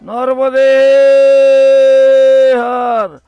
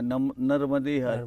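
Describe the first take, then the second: First: It is called out very loudly. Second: It is said quietly and gently. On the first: A call for help when lost or afraid. "तीन बार जोर से बोल सकते हैं" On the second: A humble greeting to every person met. "बहुत धीरे से बोलना है"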